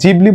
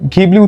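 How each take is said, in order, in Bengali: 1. নামটি নরম J শব্দ দিয়ে শুরু হয়। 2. নামটি হার্ড G শব্দ দিয়ে শুরু হয়। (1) "জাপানে এটাকে জিবলি বলা হয়" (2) "পশ্চিমা দেশে ঘিবলি উচ্চারণ করা হয়"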